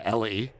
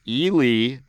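First: The name is said like Ellie. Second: The name is said the local way. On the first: The speaker calls it wrong. "or Ellie" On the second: The speaker calls it right. "I shout out to Ely"

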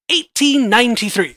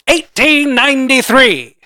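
First: It is said in his ordinary voice. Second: It is said in a put-on dramatic voice.

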